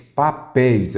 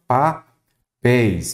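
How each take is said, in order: First: Said in the usual way. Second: "papéis" split slowly as pa... péis; syllable by syllable. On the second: Shown as a demonstration. Teacher asking to separate syllables, "papéis" slowly split in two. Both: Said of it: "separem em sílaba".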